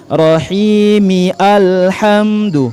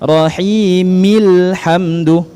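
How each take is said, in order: First: A separate vowel sound begins the second word. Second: The words link directly with no vowel before hamdu. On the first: The speaker calls it wrong. "jangan dibaca Rahimi alhamdu, itu keliru" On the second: The speaker calls it right. "dari mi langsung ke lam"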